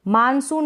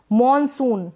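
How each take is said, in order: First: मानसून with an open "aa" first vowel; Hindi मानसून. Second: मॉनसून with an "aw" in the first syllable; English मॉनसून. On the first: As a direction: say मानसून as "maan-soon". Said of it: "मानसून नहीं पढ़ेंगे". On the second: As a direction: round the first vowel of मॉनसून to "aw". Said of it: "English में हम पढ़ेंगे मॉनसून". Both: Shown as a demonstration.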